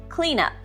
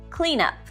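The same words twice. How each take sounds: Both takes have the same delivery.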